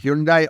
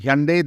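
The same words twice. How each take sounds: First: The word does not rhyme with Sunday. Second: The word rhymes with Sunday. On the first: The speaker calls it wrong. "or we should say Hyundai" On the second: The speaker calls it right. "is now the correct pronunciation"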